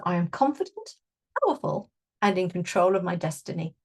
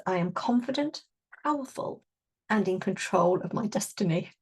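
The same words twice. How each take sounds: First: Affirmation repeated with more confidence; affirmation again, brighter. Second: Spoken affirmation, rising on confident. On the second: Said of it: "the affirmation that is linked in with this is". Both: Shown as a demonstration.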